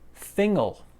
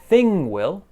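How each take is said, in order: First: The W is dropped and joined to 'thing'. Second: The W sound of 'will' is fully pronounced.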